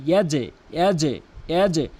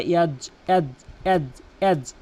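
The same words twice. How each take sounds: First: ইয়াজে with a short echo after the j; ইয়াজে, j ringing into a tiny vowel; correct bounced j. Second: ইয়াজ cut dead on the j; ইয়াজ as one closed syllable; wrong clipped ending. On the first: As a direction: release the j of ইয়াজে with a slight bounce. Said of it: "ইয়াজে বলতে হবে". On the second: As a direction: say ইয়াজ with no vowel after the j. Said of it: "ভুল উচ্চারণ". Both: Shown as a demonstration.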